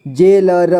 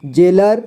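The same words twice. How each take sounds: First: जेलर split as जे, ल, र; syllable by syllable. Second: Said in the usual way. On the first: Shown as a demonstration. Teacher showing learners जेलर, sounded out in parts. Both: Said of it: "इसे पढ़ेंगे".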